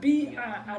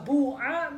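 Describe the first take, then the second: First: The first vowel is a pure i. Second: The first vowel is a pure u. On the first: "ya murni" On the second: "domah murni"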